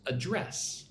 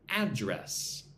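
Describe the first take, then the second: First: It is pronounced the way the verb is. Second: It is pronounced the way the noun is. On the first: It names the act of dealing with something. "when it's a verb, it goes address" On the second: It names where someone lives. "if it's a noun, it's address"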